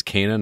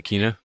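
First: Kena said as KAY-nuh; first-syllable AY. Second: Kena said as KEE-nuh; first-syllable EE. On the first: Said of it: "did I mispronounce it? It's Kena, not Kena?". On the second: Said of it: "did I mispronounce it?". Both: Shown as a demonstration.

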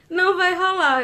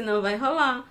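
First: NÃO punched high and loud, falling; emphatic refusal, não hit high; firm no. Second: Said in the usual way. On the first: Real, not acted. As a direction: stress Não hard, then drop on rolar. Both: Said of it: "eu já disse".

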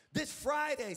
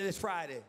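First: Friday punched as a call; call for echo. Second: Said in the usual way. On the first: Shown as a demonstration. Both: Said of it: "someone say".

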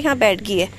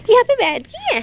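First: Said in the usual way. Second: Very high, louder cooing to the dog; a high baby-talk voice for the pet. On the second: Pretend.

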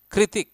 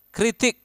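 No difference in how they are said.

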